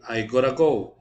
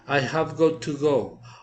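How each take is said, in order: First: The words got to blend into gotta. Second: The words got to are said in full.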